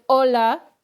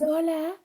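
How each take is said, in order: First: It is said in an angry tone. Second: It is said in a flirtatious tone.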